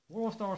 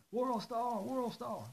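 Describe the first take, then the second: First: Said in the usual way. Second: High mocking chant; high, chanting like a bystander filming; mocking World Star shout. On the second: Imitated chant vs his own.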